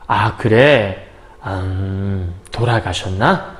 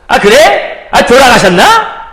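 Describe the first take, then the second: First: It is said slowly and thoughtfully. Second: It is said lightly and casually.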